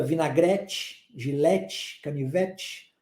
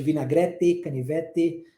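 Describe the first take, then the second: First: "vinagrete, gilete, canivete" ending in a soft "tch". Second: "vinagrete, canivete" ending in a plain "te", no tch; hard final T. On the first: Teacher shows southeastern Brazilian "vinagrete, gilete, canivete", final T as tch. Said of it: "o T sendo transformado nesse som de tch". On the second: Teacher contrasts the other way of saying "vinagrete, canivete", hard T. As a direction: say "vinagrete, canivete" low, with a clean T and full "e" at the end. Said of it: "ao invés de". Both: Shown as a demonstration.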